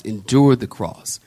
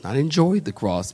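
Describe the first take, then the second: First: Endured hit firmly, lower and falling; endured stressed with a falling close. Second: Enjoyed pressed as the wrong word, then dropped; enjoyed said a touch softer, set aside; stress on enjoyed. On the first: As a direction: land on endured as the right word. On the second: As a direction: lean on enjoyed to reject it. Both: Shown as a demonstration.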